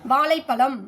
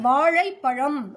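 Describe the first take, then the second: First: The l sounds are plain, tongue tip raised. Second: The l sounds are retroflex, tongue curled back. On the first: The speaker calls it wrong. "மேல்நோக்கு லகரம் தான் வரும்" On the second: The speaker calls it right. "நாக்க உள்நோக்கி மடிச்சு அழுத்தம் கொடுத்து தெளிவான உச்சரிப்போடு"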